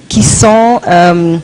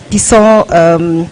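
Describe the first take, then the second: No difference in how they are said.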